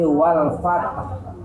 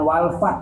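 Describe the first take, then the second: First: The final consonant bounces with a low echo. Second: The final consonant stops abruptly with no echo. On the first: The speaker calls it right. "tapi wal fatah, suara rendah" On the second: The speaker calls it wrong. "bukan wal fat saja"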